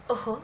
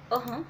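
The two takes are said the same way.

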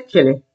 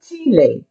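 First: "Chile" as CHILL-ee, like chilli; English food pronunciation. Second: "Chile" as CHEE-leh; Spanish pronunciation. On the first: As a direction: say "Chile" with a short I. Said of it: "You eat Chile". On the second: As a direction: say "Chile" with a long EE and open final E. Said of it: "This is Chile". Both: Shown as a demonstration.

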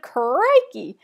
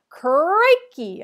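First: Loud falling exclamation; shouted. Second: Booming bellow through a microphone. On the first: Lou shouting his catchphrase at the kids, loud. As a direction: punch it out as a catchphrase. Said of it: "He shouted". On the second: Host bellowing to the gym crowd, loud booming call. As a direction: belt out the greeting, loud and falling. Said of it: "a voice bellowed through a microphone". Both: A narrator's reading.

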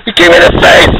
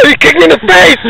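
First: High, loud, rising complaint; angry yell, IN rising. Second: Angry yell. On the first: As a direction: shout it again, voice climbing. Yelled again. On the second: Yelled after being kicked. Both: Real, not acted.

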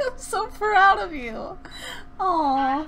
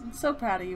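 First: High, slow, gushing pride; acted proud parent. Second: Said in the usual way. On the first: Practicing acting, gushes pride at the Sim. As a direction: overact the proud parent, stretching every word. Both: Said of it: "trying to practice my acting".

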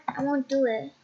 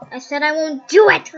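First: Said in the usual way. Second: Much louder defiant repeat; louder insistent refusal; shouted refusal. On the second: Acted. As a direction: yell it back defiantly.

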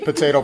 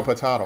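First: Potato with an AY middle; first pronunciation. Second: Potato with an AH middle; second pronunciation. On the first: Doctor jokes about rival pronunciations, potato as po-TAY-to. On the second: Doctor jokes about rival pronunciations, potato as po-TAH-to. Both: Shown as a demonstration. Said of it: "I say azo".

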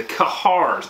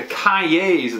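First: "Kahars" as kuh-HARS, with an r; alternative pronunciation. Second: "Cahiers" attempted as kai-yays; complicated name. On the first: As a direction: try "Kahars" with stress on a hard "har". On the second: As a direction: say "Cahiers" with a "yay" second syllable. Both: Shown as a demonstration. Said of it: "it's a complicated way to say something".

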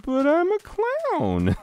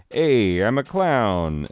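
First: Very high, drawn-out clown wail; squealed mock protest. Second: Loud, raised, drawn-out clown greeting; cheery clown. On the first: Clown told he will die, hammed-up squealing protest. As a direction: plead in a stretched squeaky falsetto. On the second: Retold or imitated. Clown shows up at court, hammed-up cheery hello. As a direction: announce yourself big and slow like a clown. Clown turns up announcing himself.

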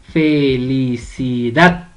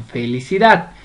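First: "felicidad" very slow, fe-li-ci-DAD, stress on "dad"; split into syllables. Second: Said in the usual way. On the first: Shown as a demonstration. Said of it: "la sílaba tónica es dat". ("felicidad" lenta, sílaba por sílaba, con fuerza en "dad") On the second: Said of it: "usted la va a separar".

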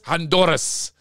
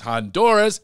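First: "Honduras" higher, in a Spanish accent with tapped r; Spanish pronunciation. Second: Said in the usual way. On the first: Shown as a demonstration. Host admiring guest's birthplace, "Honduras" in a Spanish accent. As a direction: give "Honduras" a showy Spanish r. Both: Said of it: "Not just Honduras".

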